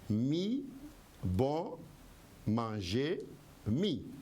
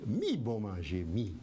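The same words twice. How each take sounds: First: The phrase is broken up with pauses. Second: The phrase is said in one go.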